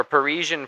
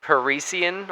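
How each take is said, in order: First: Second "Parisian" with a zh sound, puh-REE-zhun; alternate name pronunciation. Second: First "Parisian" with an s sound, puh-REE-see-un; alternate name pronunciation. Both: Shown as a demonstration. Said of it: "Not sure how he says it".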